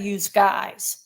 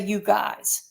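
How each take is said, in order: First: The first word ends with a z sound. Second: The first word ends in a plain vowel. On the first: This is how many people in Jersey say it. "I don't say use guys. ... a lot of Jersey will say use guys" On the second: This is how the speaker personally says it. "I say you guys"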